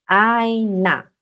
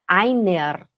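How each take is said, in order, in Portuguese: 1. O R final soa como a vogal A. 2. O R final é pronunciado claramente como uma consoante. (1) "no alemão a gente fala assim, einer. O E R no alemão tem som de A" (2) "Você vai ouvir os suíços puxarem o R"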